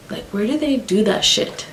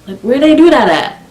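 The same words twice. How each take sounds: First: High, hushed disbelief; incredulous. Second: High-pitched, emphatic incredulous question; exclaimed disbelief. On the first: Storyteller baffled by best friend's behaviour, quietly incredulous. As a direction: ask it softly, pitch lifted in disbelief. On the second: Storyteller repeating her question about friend, loudly incredulous. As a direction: push the pitch right up, baffled. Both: Real, not acted.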